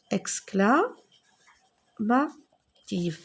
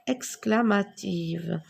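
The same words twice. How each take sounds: First: Syllabes très étirées; épelle lentement le mot. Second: Said in the usual way. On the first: Shown as a demonstration. (exclamative très lente)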